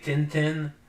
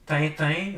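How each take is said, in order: First: The name is said the American way. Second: The name is said the European way.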